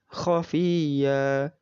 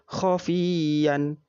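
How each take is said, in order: First: The word ends on a long drawn-out vowel. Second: The word ends with a short vowel and n. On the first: The speaker calls it right. "dibaca panjang satu alif" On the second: The speaker calls it wrong. "Tidak boleh dibaca khafiyan"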